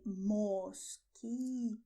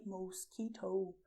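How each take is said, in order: First: "mosquito" slow, both o's short and pure; pure Spanish o. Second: "mosquito" as mohs-kee-toh with gliding o's; English-style o. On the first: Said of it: "you only have the letter O". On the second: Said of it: "this sounds, they do not exist in Spanish". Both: Shown as a demonstration.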